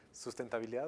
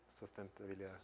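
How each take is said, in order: First: "Sustentabilidad" starting SUS, with a u; first vowel of "Sustentabilidad" as u; sus- pronunciation. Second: "sustentabilidad" starting SOS, with an o; first vowel of "sustentabilidad" as o; sos- pronunciation. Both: Shown as a demonstration. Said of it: "en español lo traducirían como".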